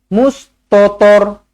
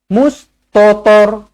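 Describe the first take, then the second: The two takes are said the same way.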